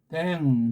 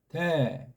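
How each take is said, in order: First: The syllable ends with an ng sound. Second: The syllable ends without an ng sound. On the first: The speaker calls it wrong. "이건 댕이 안 돼요" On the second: The speaker calls it right. "그냥 대"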